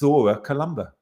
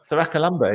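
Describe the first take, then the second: First: The word begins with a two-beat 'thora' sound. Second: The word begins with a clipped 'thrack' sound. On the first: The speaker calls it right. "Apparently it's Thora Columba" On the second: The speaker calls it wrong. "Thrakalumba is how I have said it"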